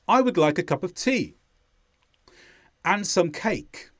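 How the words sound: The pauses between phrases are long and exaggerated. "I've made the pauses longer there to bring emphasis to them"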